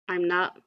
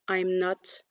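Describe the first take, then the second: First: The final T of not is barely heard. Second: The final T of not is clearly pronounced. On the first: "on va euh, quelque part sous-entendre le, le T" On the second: "j'ai vraiment accentué la prononciation du T du note"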